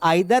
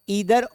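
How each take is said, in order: First: The first vowel sounds like 'eye'. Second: The first vowel sounds like 'ee'. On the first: "कुछ लोग आइदर और नाइदर भी पढ़ते हैं, वो भी सही है" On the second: "ईदर और नीदर पढ़ते हैं, वो भी सही है"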